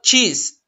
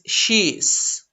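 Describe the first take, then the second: First: It starts with a ch sound. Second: It starts with a sh sound. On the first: The speaker calls it wrong. "It's not cheese" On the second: The speaker calls it right. "It's she's"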